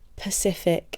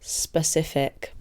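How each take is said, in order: First: The word starts with a p sound. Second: The word starts with an s sound. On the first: The speaker calls it wrong. "people who pronounce things wrong" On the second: The speaker calls it right. "instead of"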